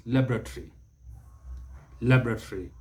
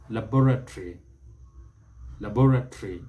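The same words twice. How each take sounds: First: Laboratory as LAB-ra-tree; American pronunciation. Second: Laboratory as la-BOR-a-tree; British pronunciation. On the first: Teacher models the American version, American pronunciation. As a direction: stress the first syllable of laboratory. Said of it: "The Americans". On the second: Teacher models the British version, British pronunciation. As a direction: stress the second syllable of laboratory. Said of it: "That is the British pronunciation". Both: Shown as a demonstration.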